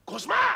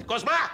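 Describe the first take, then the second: First: «Κοσμά!» πολύ πιο ψηλά και δυνατά, σε πανικό; κραυγή απελπισίας προς τον Κοσμά; πανικόβλητη φωνή. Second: Δυνατό κάλεσμα, «Κοσμά!» φωναχτό; φωνάζει τον Κοσμά από μακριά. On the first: (πανικόβλητη κραυγή) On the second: (φωνή που καλεί) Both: Acted. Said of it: "τι φωνάζεις".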